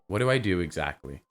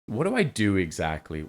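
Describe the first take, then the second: First: It is said in a natural, plain tone. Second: It is said in a salesy, pitching tone.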